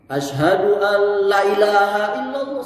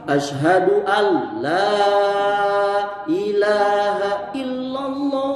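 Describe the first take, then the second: First: The vowel in 'la' is cut short. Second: The vowel in 'la' is held long. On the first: It affirms there is a god besides Allah. The speaker calls it wrong. "salah itu tuh. Kalau lamnya dibaca pendek seperti itu" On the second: It denies any god besides Allah. The speaker calls it right.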